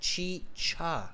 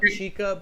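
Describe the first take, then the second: First: The middle consonant is a ch sound. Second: The middle consonant is a hard k sound. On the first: The speaker calls it right. "but chicha" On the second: The speaker calls it wrong. "thank you for correcting my pronunciation on uh, not chica"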